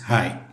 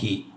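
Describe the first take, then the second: First: The vowel sounds like 'eye'. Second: The vowel sounds like 'ee'. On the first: The speaker calls it right. "H I is ഹായ്" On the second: The speaker calls it wrong. "Not ഹി"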